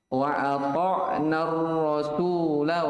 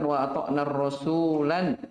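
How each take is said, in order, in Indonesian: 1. Vokal akhirnya pendek dan langsung bersambung. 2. Kata terakhir berakhir dengan tambahan bunyi n.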